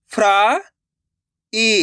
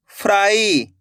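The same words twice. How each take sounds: First: "फ्राई" split slowly as fraa, long pause, ee; sounded out by letters. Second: Said in the usual way. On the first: Shown as a demonstration. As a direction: break "फ्राई" in two, the first part rising. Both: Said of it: "अक्षर का उच्चारण करके".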